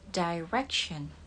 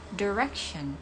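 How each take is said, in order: First: It is said in a British accent. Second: It is said in an American accent. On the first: "Untuk British, kata ini yang artinya arah itu dibaca direction" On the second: "Sedangkan untuk American"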